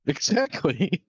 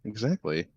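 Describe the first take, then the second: First: Slow, laughing emphatic exactly. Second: Said in the usual way. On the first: Real, not acted. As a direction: stretch it out while laughing. Laughing repeat, drawn out.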